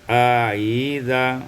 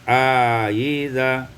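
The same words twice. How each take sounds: Both takes have the same delivery.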